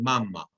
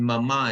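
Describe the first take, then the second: First: Mama with the stress on the first syllable; stress on start of mama. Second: Mama with the stress on the last syllable; stress on end of mama. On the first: Teacher contrasting two words, mama stressed on first syllable. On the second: Teacher contrasting two words, mama stressed on last syllable. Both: Shown as a demonstration. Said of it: "hear the difference between".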